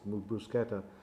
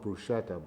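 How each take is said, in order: First: It is said the original Italian way. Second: It is said the common American way. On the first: The speaker calls it right. "but it's bruschetta" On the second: The speaker calls it wrong. "most Americans mispronounce it and call it bruschetta"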